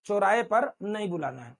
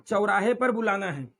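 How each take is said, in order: First: चौराहे as "chorahe"; pure "o" in चौराहे; चौराहे without the "a" glide; wrong single vowel. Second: चौराहे as "cha-urahe"; correct double vowel. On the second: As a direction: glide "a" to "u" in चौराहे. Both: Shown as a demonstration.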